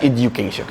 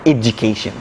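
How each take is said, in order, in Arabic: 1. الحرف الساكن الأوسط هو صوت d عادي. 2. الحرف الساكن الأوسط هو صوت j. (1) "بلاش education" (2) "لو جه بعده حرف اليو بتنطق جه ساوند"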